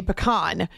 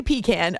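First: 'pecan' said as puh-KAHN. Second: 'pecan' said as PEE-can. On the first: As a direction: say 'pecan' with a short first syllable, ending in 'kahn'. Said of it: "other people say pecan". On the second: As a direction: say 'pecan' with ee, then 'can'. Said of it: "some people say pecan". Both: Shown as a demonstration.

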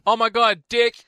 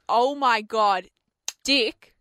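First: Higher, louder mocking oh my God, Dick; mock excited. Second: Slow excited oh my God, cut off on Dick; gush, then stop mid-name; starstruck exclaim. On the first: Co-host mocking her gaffe, higher and louder. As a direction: parrot her gaffe with glee. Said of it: "co-host mimicking her blunder". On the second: Retold or imitated. Fan greeting the wrong man, slow excited then cut off. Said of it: "because I have said".

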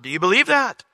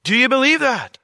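First: Rising urgency on that; first of two asks; questioning. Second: Higher, louder on believe; second ask, more forceful; emphatic repeat. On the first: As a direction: ask it plainly but pointed. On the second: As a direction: press the question harder. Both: Shown as a demonstration.

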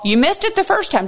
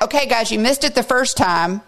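First: Higher, faster insistence; emphatic repeat. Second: Said in the usual way. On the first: Real, not acted. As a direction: drive the point home, quicker and higher. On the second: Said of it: "Jesus dares to circle back".

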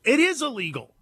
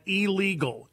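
First: "It is illegal" with the weight on "is"; stress on IS. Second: Said in the usual way. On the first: Real, not acted. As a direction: lean hard on "is" to insist. Repeats ruling, leaning on is.

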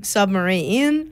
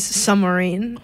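First: "submarine" said as /sʌməɹin/ with no B; "submarine" without B. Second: "Submarine" as /sʌməɹin/, B dropped; "Submarine" with silent B; "Submarine" without B. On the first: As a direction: drop the B in "submarine". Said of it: "Ben says". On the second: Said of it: "He says". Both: Retold or imitated.

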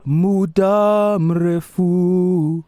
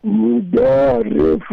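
First: Muda mrefu stretched very slow and high; each syllable of Muda mrefu drawn out; over enunciating. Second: Muda mrefu repeated at a steadier pace; repeating carefully. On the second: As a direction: muda mrefu echoed back. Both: Shown as a demonstration. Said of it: "Let's do one word at a time".

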